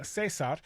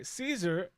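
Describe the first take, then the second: First: Cesar as seh-SAR, Spanish style; Spanish pronunciation. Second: Caesar in the English way, SEE-zer; English pronunciation. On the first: Host correcting himself, Cesar attempted in Spanish pronunciation. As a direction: say Cesar with an s sound, stressing the end. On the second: Host first tries the name, Caesar in plain English. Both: Shown as a demonstration. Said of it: "so hard for me to do the Spanish accent".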